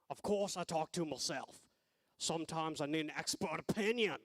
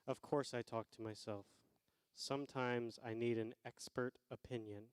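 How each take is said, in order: First: It is read in an Australian accent. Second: It is read in a plain accent.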